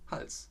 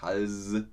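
First: The final s is sharp and voiceless. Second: The final s is soft and voiced. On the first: The speaker calls it right. "So spricht man das aus. Man benutzt das scharfe S" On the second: The speaker calls it wrong. "Nicht Hals"

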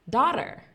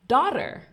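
The two takes are said the same way.

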